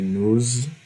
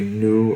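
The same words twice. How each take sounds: First: The word ends with a linking z sound. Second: The word ends on the vowel, no z sound. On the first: "in this case we would say nous" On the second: "usually we would say nous"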